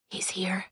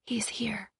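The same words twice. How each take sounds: First: Hushed murmur. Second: Breath-only whisper, no voice. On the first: Thorn gripping Cress's arm, speaking in a hushed murmur. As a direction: murmur it under your breath. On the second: Cress answering Thorn beside her, whispering back. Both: A narrator's reading. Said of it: "she whispered back".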